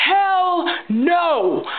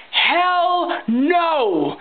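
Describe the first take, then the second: First: HELL higher still, punched and falling; emphatic hell no. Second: HELL punched, higher, falling hard; emphatic hell no. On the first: Ranting vlogger repeats her refusal, harder. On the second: Ranting vlogger to viewers, emphatic refusal. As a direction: slam down the answer. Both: Real, not acted. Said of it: "I'll say it again".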